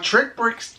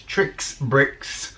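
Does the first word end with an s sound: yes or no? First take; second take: no; yes. First: The first word has no final s sound. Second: The first word ends with an s sound. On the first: The speaker calls it wrong. "I got told off for saying that wrong recently" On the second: The speaker calls it right. "It's tricks bricks"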